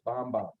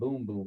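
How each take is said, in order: First: The vowel is a short o sound. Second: The vowel is a long oo sound. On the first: The speaker calls it right. "it's Bomb Bomb" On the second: The speaker calls it wrong. "It's not Boom Boom"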